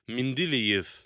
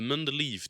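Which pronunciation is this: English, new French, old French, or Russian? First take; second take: Russian; English. First: It uses the Russian pronunciation. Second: It uses the English pronunciation. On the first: "en russe, c'est" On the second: "la prononciation anglaise"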